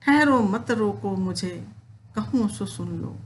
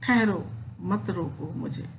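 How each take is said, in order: First: Kaikeyi halting the assembly, recited; poem recitation. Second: Said in the usual way. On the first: Acted. Teacher reciting Kaikeyi stopping everyone, declaimed verse.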